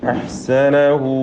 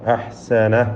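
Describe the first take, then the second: First: The word ends on a long drawn-out hu. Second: The word ends on a stopped h sound. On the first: The reciter continues into the next word. "ചേർത്ത് ഓതുകയാണെങ്കിൽ അവിടെ മദ്ദു സിലത്തിൽ കുബ്ര കൊടുത്ത്" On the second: The reciter pauses here. "അവിടെ വഖഫ് ചെയ്യുമ്പോൾ ഹായിന് സുക്കൂനാണ്"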